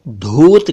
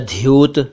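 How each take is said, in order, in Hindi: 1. पहली ध्वनि सादा महाप्राण 'dh' है। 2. पहली ध्वनि महाप्राण 'dh' के साथ 'y' है। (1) "कई लोग इसे धूत कहते हैं ... जो कि गलत है" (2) "धूत या ध्यूत, जो कि गलत है"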